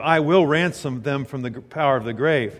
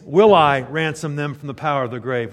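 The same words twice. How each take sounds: First: "I will" said as a firm declaration; read as statement. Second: "Will I" hit loud as a challenge; questioning reading, louder on "Will I". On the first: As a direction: state "I will ransom them" as a settled fact. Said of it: "Instead of being a statement". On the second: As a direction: ask "Will I ransom them" as a rhetorical question. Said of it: "when you say that as a question mark". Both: Shown as a demonstration.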